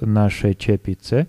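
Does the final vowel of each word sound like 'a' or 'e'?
e. Both words end in an 'e' vowel. This is the standard literary form.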